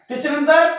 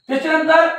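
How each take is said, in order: The two takes are said the same way.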